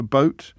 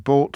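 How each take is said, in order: First: Said in the usual way. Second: "bought" as boat with an aw vowel; London vowel. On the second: Shown as a demonstration. Host attempting multicultural London English, "bought" for boat. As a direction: say boat slowly with a single aw, "bought". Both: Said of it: "the examples given here".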